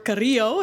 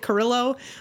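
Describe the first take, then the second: First: The name is said with its native pronunciation. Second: The name is said with an Americanized pronunciation. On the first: The speaker calls it right. "Carrillo is how you really would pronounce it" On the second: The speaker calls it wrong. "if you're a typical American, you'll say Carrillo"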